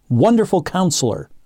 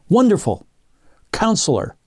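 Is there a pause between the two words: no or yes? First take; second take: no; yes. First: The two words run together without a pause. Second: There is a pause between the two words. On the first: It is one title describing a wonderful counselor. The speaker calls it right. "there's no comma in between here. This means Wonderful Counselor" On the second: They are two separate titles. The speaker calls it wrong. "not Wonderful Counselor"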